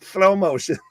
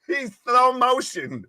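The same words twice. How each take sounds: First: Slow with a lisped th sound. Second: Drawn-out slow-motion delivery. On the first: Shown as a demonstration. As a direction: say Slow motion with s as th. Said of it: "I was just putting a lisp on slow motion". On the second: Pretend. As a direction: stretch every word out slowly. Mocking slow wrestler entrance.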